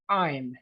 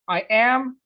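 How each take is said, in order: First: It is said as one contracted syllable. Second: It is said as two full words.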